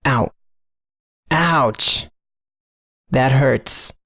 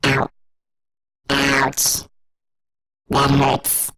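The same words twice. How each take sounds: First: Hot, clipping pained yelps; loud hurt cries. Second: Processed robot voice, pitched down; hurt robot voice with a raised formant. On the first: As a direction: overdriven cries of pain. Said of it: "recorded my own voice deliberately hot enough to just clip". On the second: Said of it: "creating a robot voice". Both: Shown as a demonstration.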